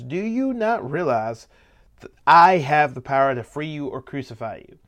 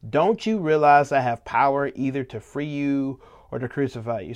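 First: Flex your power, drawing out the question. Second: Said in the usual way. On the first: Acted. Pilate asserting his power over Jesus, flexing. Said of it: "Pilate flexes".

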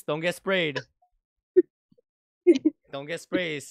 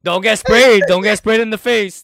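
First: Said in the usual way. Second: Much higher and louder laughing yell; teasing shout. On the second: Real, not acted. Teasing his friend about wrestling, loud laughing shout. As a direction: shout the tease through laughter.

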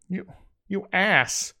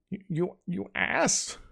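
First: Slow, higher angry growl. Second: Slow, higher, softer tearful growl; growled while sobbing. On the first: Avok curses his friend, slow angry growl. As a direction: spit the insult out slowly. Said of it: "growled Avok". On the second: Avok curled up crying, softer tearful growl. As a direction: choke out the insult through tears. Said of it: "he growled". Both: A narrator's reading.

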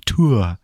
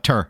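First: "Tour" with a clear oo, as toor; careful pronunciation. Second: "Tour" with an r-colored vowel, as ter; Midwestern pronunciation. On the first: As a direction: say "Tour" as too-er, rounded oo. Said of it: "now I always be like". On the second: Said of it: "I'm just like". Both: Retold or imitated.

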